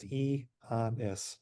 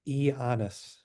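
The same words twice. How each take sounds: First: The name is said slowly, syllable by syllable. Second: The name is said at normal speed.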